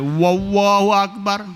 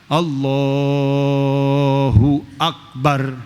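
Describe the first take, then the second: First: The phrase starts with an added w sound. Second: The phrase starts directly on the vowel of Allahu. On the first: The speaker calls it wrong. "Ada tambahan tuh waw" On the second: The speaker calls it right. "Tujuh alifat empat belas harokat doang"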